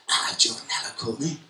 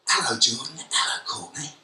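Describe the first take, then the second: First: The voice is soft and very enthusiastic. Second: The voice is plain and ordinary.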